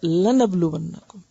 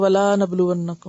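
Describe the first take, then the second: First: The 'la' is said with a short vowel. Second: The 'la' is said with a long vowel. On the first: We will surely test you. The speaker calls it right. "एक हरकत है" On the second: We will not test you. The speaker calls it wrong. "इसको यूं नहीं पढ़ सकते"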